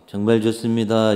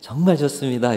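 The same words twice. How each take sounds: First: It is said flat, with a low voice. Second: It is said with a raised, lively voice.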